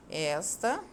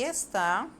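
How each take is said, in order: First: "Esta" stressed on ES, open e; "Esta" as ES-ta, weak final syllable; stress on first syllable. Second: "está" stressed on final TÁ; "está" as es-TÁ, weak first syllable; stress on last syllable. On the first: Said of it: "a sílaba mais forte é o es". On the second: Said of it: "a sílaba forte dela é a última". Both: Shown as a demonstration.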